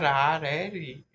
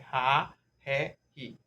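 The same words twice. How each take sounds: First: The R is a tapped sound. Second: The R is a breathy H-like sound. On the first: The speaker calls it wrong. "Não é" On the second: The speaker calls it right. "É"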